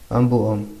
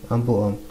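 Both takes have the same delivery.

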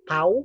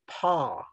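First: The vowel sounds like the 'ow' in cow. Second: The vowel is an open 'aw' sound. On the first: The speaker calls it wrong. "It's not pow" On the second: The speaker calls it right. "but paw"

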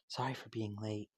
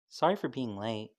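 First: It is said very quietly. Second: It is said at normal loudness.

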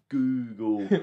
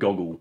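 First: The first vowel is a long 'oo'. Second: The first vowel is a short 'o'. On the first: The speaker calls it right. "There's two O's in there, it's Google" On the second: The speaker calls it wrong. "she'll pronounce it Goggle"

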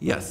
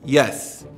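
First: It is said at normal, quieter volume. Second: It is said with more volume.

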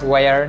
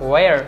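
No difference in how they are said.

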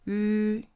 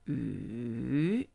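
First: The pitch stays high and level. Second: The pitch dips low and then rises. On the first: "The first one, high flat" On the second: "falling, rising"

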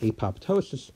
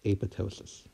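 First: The second p is clearly pronounced. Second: The second p is silent. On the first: The speaker calls it wrong. "who've always been pronouncing it apoptosis" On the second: The speaker calls it right. "it's actually pronounced apoptosis"

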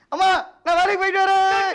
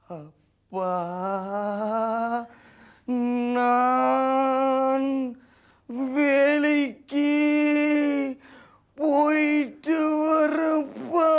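First: The line is said quickly. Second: The line is drawn out slowly.

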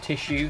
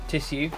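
First: The middle consonant is an sh sound. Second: The middle consonant is a plain s sound. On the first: The speaker calls it wrong. "not tissue. There's no H in it" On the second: The speaker calls it right. "Yes, tissue"

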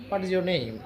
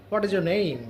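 The two takes are said the same way.

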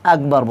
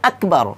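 First: The k sound is weak and not fully pronounced. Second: The k sound is fully and clearly pronounced. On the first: The speaker calls it wrong. "আমরা অনেকেই ভুল করে থাকি, এখানে কি বলি, আকবর বলি।" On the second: The speaker calls it right. "আকবর কাফটা কি করতে হবে, পরিপূর্ণ করে উচ্চারণ করতে হবে"

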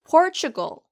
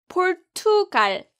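First: English sounds, strong first syllable, ch sound. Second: Korean syllables with an even beat and clear t. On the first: The speaker calls it right. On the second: The speaker calls it wrong. "포르투갈 아니에요"

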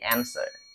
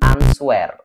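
First: No W sound is pronounced. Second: A W sound is pronounced. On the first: The speaker calls it right. "W-nya juga nggak dianggap" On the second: The speaker calls it wrong. "bukan answer"

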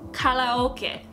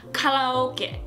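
First: It is said with a Japanese pronunciation. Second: The same.

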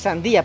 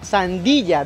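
First: The final vowels meet with no consonant between. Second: A y-like consonant comes before the final vowel. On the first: This is the standard written form. "sandía, pero se pronuncia sandilla" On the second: This is the colloquial local way of saying it. "se pronuncia sandilla"

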